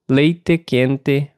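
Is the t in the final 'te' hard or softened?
hard. The final te has a plain, hard t. This is the accent of one region. "o sotaque usava o som de T nas palavras terminadas em TE como T"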